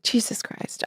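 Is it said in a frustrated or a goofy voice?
frustrated. It is said in an exasperated, frustrated tone.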